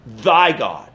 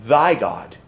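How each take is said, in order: First: "thy" set apart and falling; stress on thy again. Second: "Thy" leaned on, low and falling; stress on thy. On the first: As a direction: land on "thy" as the key word. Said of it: "He says". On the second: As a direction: point at the word "Thy". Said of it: "what's the next word?". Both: Shown as a demonstration.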